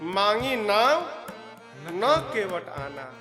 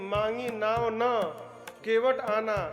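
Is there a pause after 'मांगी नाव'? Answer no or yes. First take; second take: yes; no. First: There is a pause after the first two words. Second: The phrase is said straight through without a pause. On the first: The boat was asked for, but the boatman did not come. The speaker calls it right. "उसके बाद रुक कर बोलना है" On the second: The boat was not asked for, yet the boatman brought it. The speaker calls it wrong. "यदि बोल दिए मांगी नाव न केवट आना"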